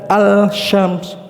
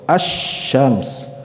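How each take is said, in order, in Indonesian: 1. Bunyi L dilafalkan sebelum sh. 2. Bunyi L melebur menjadi sh yang bertasydid. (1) "bukan al-syams" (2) "tapi langsung asy-syams ya, suara lamnya lebur ke huruf shin"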